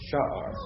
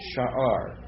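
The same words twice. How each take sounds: First: The stress is on the first syllable. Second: The stress is on the second syllable. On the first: The speaker calls it right. "accent's on the first syllable" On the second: The speaker calls it wrong. "I'm doing it wrong"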